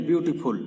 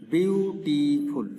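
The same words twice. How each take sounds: First: Said in the usual way. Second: বিউটিফুল drawn out slowly in separate syllables; slow, syllable-counting বিউটিফুল. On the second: Shown as a demonstration. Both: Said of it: "তিনটা syllable".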